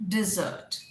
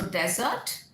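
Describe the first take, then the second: First: Dessert as di-ZURT; the sweet dessert. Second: Desert as DEZ-ert, slowly; the sandy desert. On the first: Teacher sums up the contrast, dessert as di-ZURT. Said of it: "syllable किस पे stress करेंगे". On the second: Teacher sums up the contrast, desert as DEZ-ert. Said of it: "डेजर्ट आपका रेगिस्तान". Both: Shown as a demonstration.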